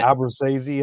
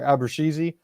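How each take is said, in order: First: The middle consonant sounds like s. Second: The middle consonant sounds like sh. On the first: The speaker calls it wrong. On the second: The speaker calls it right. "S H, sure"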